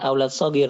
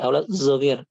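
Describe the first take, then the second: First: The word begins with a plain s sound. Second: The word begins with a z-like sound. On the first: This is the standard pronunciation. "bukan aulad sogir" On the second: This is how some Egyptians say it. "tapi aulad zogir"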